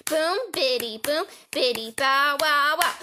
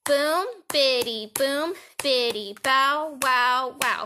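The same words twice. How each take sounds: First: Quicker boom biddy chant; chanted, speeding-up rhythm game; faster chant. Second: Slow, steady boom biddy chant; chanted, slow first round before speeding up. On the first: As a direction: chant it faster than the first run. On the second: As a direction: chant it slowly and evenly. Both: Shown as a demonstration.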